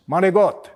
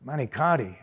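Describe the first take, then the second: First: Manigot, "mah-nee-got", ending clipped, louder; Italian pronunciation. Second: Manicotti said fully, flat "man-ih-kot-tee"; plain American Manicotti; imitating mispronunciation. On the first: Shown as a demonstration. Correcting the listener with the family word, proud Manigot. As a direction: Manigot dropping the final vowel, said with pride. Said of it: "That's how we say it". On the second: Repeating how outsiders say it, a flat Manicotti.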